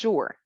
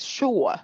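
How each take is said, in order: First: The vowel is said plainly without extra stress. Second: The vowel is said with strong, heavy stress. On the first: "So it's not just sure" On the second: "they like to stress on the vowel sounds"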